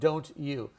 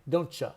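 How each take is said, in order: First: The last word is said fully as 'you'. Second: The last word is reduced to a short 'ya'. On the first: "instead of don't you" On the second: "And you say, don't ya"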